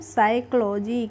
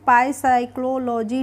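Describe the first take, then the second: First: The word begins with an s sound. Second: The word begins with a p sound. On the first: The speaker calls it right. "इसको पढ़ते हैं हम साइकोलॉजी" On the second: The speaker calls it wrong. "पाई साइक्लोलॉजी नहीं पढ़ते हैं"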